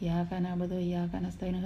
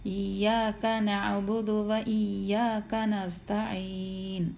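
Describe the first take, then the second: First: It is rushed, with a single short y. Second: The y sound is clearly doubled and held. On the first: We worship the sunlight and ask it for help. The speaker calls it wrong. "ധൃതിക്ക് ... യാക്ക് ഷെദ്ദില്ലാതെ" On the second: Only you we worship and ask for help. The speaker calls it right. "നല്ലോണം വ്യക്തമായിട്ട് പറഞ്ഞിട്ട് ... അങ്ങനെ പറയണം"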